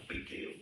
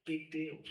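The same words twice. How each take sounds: First: Breathy laughing whisper of big deal; a wry whispered Big deal. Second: Said in the usual way. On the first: Shown as a demonstration.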